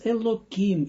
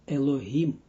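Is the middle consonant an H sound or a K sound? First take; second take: K sound; H sound. First: The middle consonant is a K sound. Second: The middle consonant is an H sound. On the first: This avoids pronouncing the holy name in vain. "we pronounce it as Elokim" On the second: This is the holy name as normally written. "normally is it Elohim"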